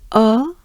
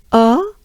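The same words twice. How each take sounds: The two takes are said the same way.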